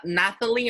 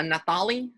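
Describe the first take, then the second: First: "Nathalie" tried out, stress on the first syllable; first pronunciation guess. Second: "Nathalie" with stress moved to the second syllable; second pronunciation guess. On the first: Host checking the caller's name, trying "Nathalie" stressed up front. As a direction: offer "Nathalie" as one possible pronunciation. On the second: Host asking caller about her name, "Nathalie" stressed later. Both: Shown as a demonstration. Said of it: "How do I say that?".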